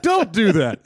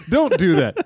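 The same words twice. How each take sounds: First: Higher again, laughing, falling end; pleading warning. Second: Louder, higher, half laughing; pleading warning. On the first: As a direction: plead once more, laughing. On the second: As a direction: beg him not to. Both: Acted. Repeated warning.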